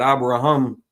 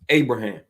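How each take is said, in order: First: The name is pronounced with Hebrew sounds. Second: The name is pronounced with English sounds. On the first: "Abraham in Hebrew" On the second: "Abraham in English"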